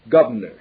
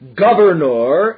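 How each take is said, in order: First: The unstressed vowels are clipped and hurried. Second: All the vowels are pronounced fully.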